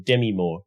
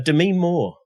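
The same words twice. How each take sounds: First: The name is said in a plain, ordinary way. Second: The name is said in a fancy, affected way. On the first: The speaker is not being pretentious. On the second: The speaker is being pretentious.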